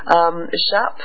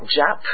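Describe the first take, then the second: First: The acronym is pronounced the French way. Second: The acronym is pronounced the English way. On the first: The speaker calls it right. "I make sure I'm pronouncing it the French way" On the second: The speaker calls it wrong. "Not JAP"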